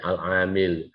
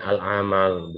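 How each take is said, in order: First: The vowel after the m is 'i'. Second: The vowel after the m is 'a'. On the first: The speaker calls it right. "tapi al-amil" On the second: The speaker calls it wrong. "Bukan bacanya al-amal"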